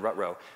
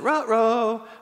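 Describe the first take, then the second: First: It is read flatly, like plain machine speech. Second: It is said expressively, as a lively interjection. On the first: The word is read as ordinary text. The speaker calls it wrong. "if you just type rut-row, it would have said" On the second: The word is used as a real exclamation. The speaker calls it right. "But she said, rut-row"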